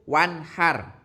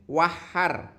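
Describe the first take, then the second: First: The n sound is pronounced clearly. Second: The n sound is not pronounced clearly. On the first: The speaker calls it right. "harus jelas" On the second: The speaker calls it wrong. "Tidak boleh"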